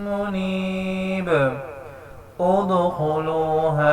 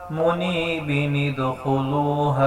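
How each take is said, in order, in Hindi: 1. दोनों शब्दों के बीच रुकावट है, नून की आवाज़ नहीं है। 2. शब्द नून की आवाज़ के साथ आपस में जुड़ जाते हैं। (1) "अगर यहाँ पे स्टॉप करना है" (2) "अगर हमने मुनीबी पे यहाँ पर स्टॉप नहीं करना तो फिर पढ़ेंगे"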